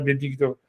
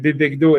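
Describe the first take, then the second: First: The vowel after b is an i sound. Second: The vowel after b is an e sound. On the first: The base word's vowel is changed. The speaker calls it wrong. "et pas Bebigdo" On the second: The base word keeps its original vowel. The speaker calls it right. "il devrait conserver sa, sa voyelle et à l'état construit, donc ça devrait être Bebegdo"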